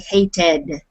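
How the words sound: The ending is said the American way. "Americans and Canadians, we say an E D sound here"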